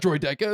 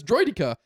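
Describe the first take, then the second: First: "Droideca" said droy-DECK-uh; wrong pronunciation. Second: "Droidica" said droy-DEE-kuh; corrected pronunciation. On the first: Retelling a correction to a friend, "Droideca" with DECK in the middle. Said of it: "It's not Droideca". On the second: Retelling a correction to a friend, "Droidica" with DEE in the middle. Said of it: "it's Droidica". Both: Retold or imitated.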